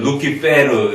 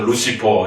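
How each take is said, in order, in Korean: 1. 가운데 자음은 딱딱한 k 소리입니다. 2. 가운데 자음은 부드러운 s 소리입니다. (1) "라틴어 벌게이트역에서 루키 페르" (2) "영어식 발음으로 하게 되면"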